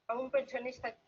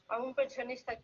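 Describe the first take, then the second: Both takes have the same delivery.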